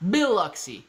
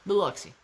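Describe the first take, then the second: First: Biloxi with BILL punched higher; stress on BILL. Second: Said in the usual way. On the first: Shown as a demonstration. Showing chat how to say it, Biloxi stressed on BILL. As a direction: hit the first syllable of Biloxi, BILL-oxi. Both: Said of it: "Emphasis on the Bill".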